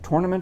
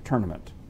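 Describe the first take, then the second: First: The first syllable sounds like 'tore'. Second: The first syllable sounds like 'turn'. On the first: "you would say tore, like you tore a piece of paper" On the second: "or turn, like you're making a left turn in NASCAR"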